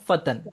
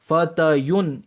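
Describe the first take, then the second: First: The word has no y sound and ends in -an. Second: The word has a y sound and ends in -yun. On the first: This is the reduced form after the weak letter drops. "तो फतयुन जाके क्या हो गया, वो फतन" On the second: This is the full form before the weak letter drops. "या पे जो है दो पेश आ रहा था"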